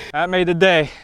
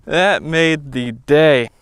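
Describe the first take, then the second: First: Said in the usual way. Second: Slow, savoring repeat. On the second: Real, not acted. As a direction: let the words linger, satisfied.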